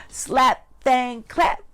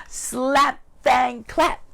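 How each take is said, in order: Both takes have the same delivery.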